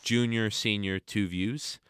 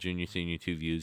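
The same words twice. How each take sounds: First: The name is said more slowly. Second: The name is said at normal, quick pace.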